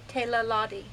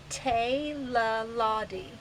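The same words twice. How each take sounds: First: Said in the usual way. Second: Teilaladi drawn out slowly, syllable by syllable; stretched-out, careful Teilaladi; slow teaching pronunciation. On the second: Shown as a demonstration. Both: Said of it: "the word we're gonna learn today".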